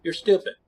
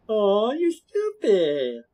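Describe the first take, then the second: First: Said in the usual way. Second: Drawn-out, high-pitched mock sympathy; slow, teasing, exaggerated sarcasm; sarcastic. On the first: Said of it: "Both are insults to me. But one's sarcastic". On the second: Shown as a demonstration. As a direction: stretch it way out with a sarcastic lilt. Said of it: "But one's sarcastic".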